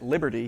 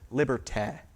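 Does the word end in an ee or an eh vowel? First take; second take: ee; eh. First: The final vowel is a tense ee sound. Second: The final vowel is a relaxed eh sound. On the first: "he wouldn't have said liberty" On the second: "he said liberté, right? So it's that, this eh sound"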